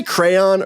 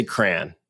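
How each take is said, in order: First: "crayon" in two full syllables, CRAY-on. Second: "crayon" squeezed to one syllable, "cran". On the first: Asking co-host which way they say it, "crayon" as CRAY-on. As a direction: sound out both vowels in "crayon". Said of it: "do you say crayon or". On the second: Asking co-host which way they say it, "crayon" as "cran". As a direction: say "crayon" to rhyme with "man". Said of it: "or do you say crayon". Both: Shown as a demonstration.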